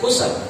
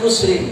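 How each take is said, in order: First: The word ends on a bare consonant. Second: The word ends with an added -in sound. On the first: The speaker calls it right. "bukan khusr" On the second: The speaker calls it wrong. "Dia baca khusrin"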